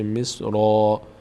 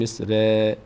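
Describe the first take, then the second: First: The r sound is heavy and full. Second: The r sound is light and thin. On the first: The speaker calls it right. "را پر خونده میشه" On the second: The speaker calls it wrong. "نمیگیم"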